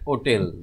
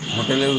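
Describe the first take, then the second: First: The word begins directly with a vowel sound. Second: The word begins with an audible h sound. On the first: The speaker calls it right. "আসলে উচ্চারণ হচ্ছে ওটেল।" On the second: The speaker calls it wrong. "হোটেলটা উচ্চারণ আমরা ভুল করি।"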